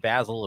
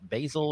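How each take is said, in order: First: The name is said the British way. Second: The name is said the American way.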